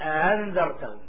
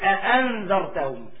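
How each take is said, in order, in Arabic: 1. تُنطق الهمزة الثانية مسهّلة ومُلانة. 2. تُنطق الهمزة الثانية كاملة وواضحة. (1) "أما التسهيل" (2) "التحقيق هو إظهار الهمزة"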